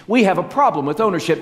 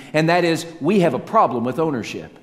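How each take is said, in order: First: Higher, louder and fast, hammer the point home; emphatic repeat. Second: Said in the usual way. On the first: Shown as a demonstration. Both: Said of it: "repeated for emphasis".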